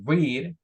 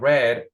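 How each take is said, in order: First: The vowel is long, sounding like reed. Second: The vowel is short, sounding like red. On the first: The action is in the present. "we're talking in present" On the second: The action happened in the past. "she's talking in the past"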